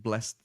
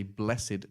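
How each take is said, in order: First: "blessed" said as one syllable, blest. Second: "blessed" said in two syllables, bless-ed. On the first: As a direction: say "blessed" short, like blest, the verb. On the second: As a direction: stretch "blessed" into bless-ed, the adjective. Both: Shown as a demonstration. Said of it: "What's the difference between blessed and blessed?".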